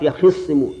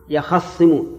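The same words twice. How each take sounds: First: يخصمون with a kasra on the خ, yakhissimūn; kasra reading. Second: يخصمون with an open a on the خ, yakhassimūn; fatha reading. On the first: Teacher models the reading in the Quran copy for the class, with an i on the خ. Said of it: "بكسر الخاء". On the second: Teacher models the author's reading for the class, with an open a on the خ. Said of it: "فصارت على هذه القراءة". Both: Shown as a demonstration.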